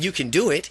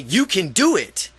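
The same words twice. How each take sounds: First: It is said calmly as a plain statement. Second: It is said loudly as an exclamation.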